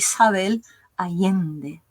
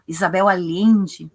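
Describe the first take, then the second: First: The double L has a Chilean Spanish sound. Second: The double L sounds like Portuguese 'lh'. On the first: This is how the person herself says it. "mas a Isabel é chilena, então a pronúncia dela é" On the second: This is how people in southern Brazil say it. "A gente tem a tendência de fazer esses dois L's é, como um L H"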